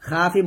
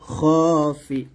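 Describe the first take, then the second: First: The first vowel is an open, bright a. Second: The first vowel is a dark, o-like sound. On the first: The speaker calls it wrong. "খাফি বলবে না" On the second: The speaker calls it right. "এখানে খা না বলে খ বলতে হবে"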